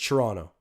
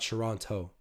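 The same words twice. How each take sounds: First: The final t sound is dropped. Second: The final t sound is clearly pronounced. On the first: The speaker sounds local. The speaker calls it right. "It's Toronto" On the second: The speaker sounds like an outsider. The speaker calls it wrong. "I got to stop saying the T at the end of Toronto. It makes me sound like I'm not from here"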